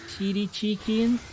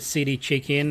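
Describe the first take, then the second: First: The first word begins with an sh sound. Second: The first word begins with a plain s sound.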